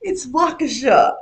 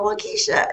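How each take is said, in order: First: "Waukesha" as WAH-kuh-shaw, slow and emphatic; retold drawn-out correction, "Waukesha" as WAH-kuh-shaw; corrected Waukesha. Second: "Waukesha" as wah-KEE-sha, high-pitched; retold wrong "Waukesha", rhyming with Keisha; mispronounced Waukesha. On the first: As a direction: correct it slowly, stressing the first syllable of "Waukesha". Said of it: "And she goes". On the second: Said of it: "you say Keisha after everything".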